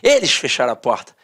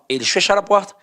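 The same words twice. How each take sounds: First: It is read happily as an exclamation. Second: It is read firmly as a statement.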